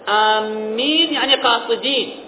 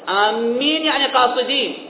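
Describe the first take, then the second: No difference in how they are said.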